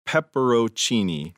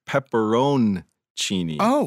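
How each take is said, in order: First: The N sound is left out. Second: The N sound is clearly pronounced. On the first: The speaker calls it wrong. "I heard you say pepperoncini" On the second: The speaker calls it right. "the correct pepperoncini, where the N is pronounced"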